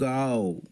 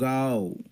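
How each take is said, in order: Both takes have the same delivery.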